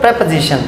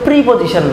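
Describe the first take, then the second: First: It is said as one blended word. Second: It is said as 'pre' plus 'position'. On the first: The speaker calls it right. "এটার উচ্চারণ কিন্তু প্রিপজিশন" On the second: The speaker calls it wrong. "এটার উচ্চারণ কিন্তু প্রিপজিশন নয়"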